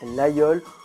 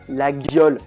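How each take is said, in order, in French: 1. Aucun son g ne s'entend au milieu. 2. Un g dur s'entend au milieu. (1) "alors que c'est" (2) "les gens prononcent"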